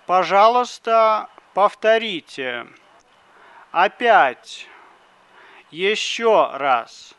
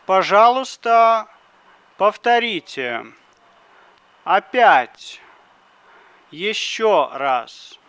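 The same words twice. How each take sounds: The two takes are said the same way.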